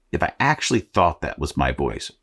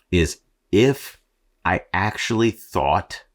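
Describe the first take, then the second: First: Said in the usual way. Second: Slow, higher hint of the Austrian accent; Arnold Schwarzenegger voice. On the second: Shown as a demonstration. Podcaster jokes his real voice were Arnold, faint Austrian accent.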